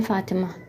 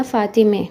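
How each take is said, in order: First: फ़ातिमा ending in a long "aa"; Urdu pronunciation. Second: फ़ातिमे ending in "e" instead of "aa"; Persian pronunciation. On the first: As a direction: say फ़ातिमा the Urdu way, final -maa. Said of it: "Urdu में भी पढ़ते हैं फ़ातिमा". (फ़ातिमा, आख़िर में "आ" की आवाज़) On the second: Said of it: "वो आ की बजाय ए निकालते हैं". (फ़ातिमे, आख़िर में "ए" की आवाज़) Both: Shown as a demonstration.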